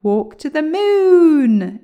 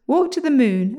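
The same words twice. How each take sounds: First: High, slow, drawn-out shout; excited shout. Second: Higher, loud command, kept brisk. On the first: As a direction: shout the command, stretching the last word. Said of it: "shouted William in excitement". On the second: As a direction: order the slippers on their way. William orders the slippers off. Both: A narrator's reading.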